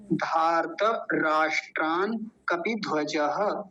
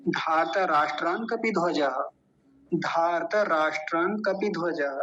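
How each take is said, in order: First: Slow धार्त राष्ट्रान कपिध्वजः with breaks; slow with pauses. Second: धार्त राष्ट्रान कपिध्वजः in one unbroken flow; joined, no pause. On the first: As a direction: say it slowly, stopping to explain. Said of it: "केवल समझने के लिए रुकेंगे". (रुक रुक कर धीमा पाठ) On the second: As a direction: run it together without stopping. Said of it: "एक साथ मिला के बोलेंगे तो कहीं नहीं रुकना". (बिना रुके एक साथ) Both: Shown as a demonstration.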